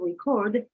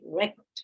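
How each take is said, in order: First: The stress is on the second syllable. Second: The stress is on the first syllable. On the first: It is used as a verb. "in the verb it goes to the second" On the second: It is used as a noun. "in the noun it goes in the first syllable"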